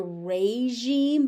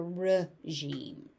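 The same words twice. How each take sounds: First: "regime" as ray-ZHEEM; full AY vowel opening "regime"; alternate pronunciation. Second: "regime" as ruh-ZHEEM; reduced first vowel in "regime"; common American pronunciation. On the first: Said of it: "You may also hear regime". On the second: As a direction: say "regime" with a short ruh at the front. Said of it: "more common in American English to hear". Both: Shown as a demonstration.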